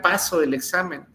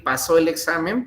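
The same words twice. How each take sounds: First: "Paso" stressed on its first syllable. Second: "pasó" stressed on its last syllable; stress on final SÓ. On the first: Teacher showing the student's error, stress on PA in "Paso". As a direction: say PA-so in "Paso el examen", as misspelled. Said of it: "pero pues escribió paso". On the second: Teacher reading the intended sentence, stress on SÓ in "pasó". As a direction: say pa-SÓ in "pasó el examen". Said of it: "la sílaba tónica es la última". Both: Shown as a demonstration.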